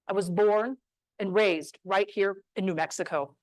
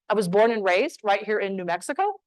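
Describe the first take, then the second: First: The voice falls at the end. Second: The voice rises at the end. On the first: The speaker sounds certain and confident. The speaker calls it right. "play with the downward inflection" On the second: The speaker sounds uncertain. The speaker calls it wrong.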